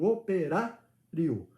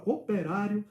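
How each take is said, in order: First: "operário" drawn out slowly, leaning on "rá"; stress on RÁ. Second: Said in the usual way. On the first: Shown as a demonstration. Father showing his child the tonic syllable, stressing "rá" in "operário". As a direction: sound out "operário" slowly with the weight on "rá". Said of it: "o acento vai em cima do rá". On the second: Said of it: "a sílaba tônica é o rá".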